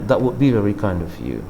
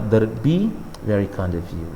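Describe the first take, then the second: First: 'That would' is said as two full words. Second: 'That would' is shortened into one quick syllable. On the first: "bisa sih dengan" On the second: "mau cepat kadang-kadang terdengar"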